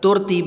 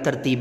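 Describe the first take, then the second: First: The first syllable has a u vowel. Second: The first syllable has an a vowel. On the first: The speaker calls it wrong. "तुरतीब नहीं पढ़ेंगे" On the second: The speaker calls it right. "असल जो इसका तलफ़ुज़ बनेगा"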